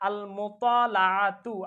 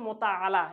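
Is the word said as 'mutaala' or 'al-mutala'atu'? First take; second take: al-mutala'atu; mutaala. First: It is said in full as al-mutala'atu. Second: It is said as the short form mutaala. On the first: This is the original form of the word. The speaker calls it right. "এই শব্দটার মূল উচ্চারণ হচ্ছে আল মুতালাআতু" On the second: This is the popular everyday form. The speaker calls it wrong. "এটা কিন্তু গলত মাশহুর, ভুল, কিন্তু এটা প্রসিদ্ধ"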